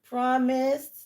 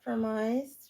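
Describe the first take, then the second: First: The word ends with a clear d sound. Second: The word ends without the d sound. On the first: The speaker calls it right. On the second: The speaker calls it wrong. "not promised. You said promised again"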